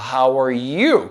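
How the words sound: The stress is on you.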